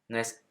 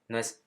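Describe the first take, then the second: No difference in how they are said.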